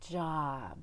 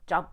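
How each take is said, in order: First: The vowel is held long with breath. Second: The vowel is cut short and swallowed. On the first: The speaker calls it right. "spending a long time on exhaling the O" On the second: The speaker calls it wrong. "he kind of swallowed the O"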